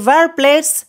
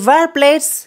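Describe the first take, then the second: No difference in how they are said.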